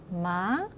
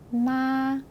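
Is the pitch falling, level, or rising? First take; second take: rising; level. First: The pitch rises lightly at the end. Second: The pitch stays high and long throughout. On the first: "가볍게 끝을 올려서 읽어주시면 되겠습니다" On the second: "높고 길게 발음을 하시면 되겠습니다"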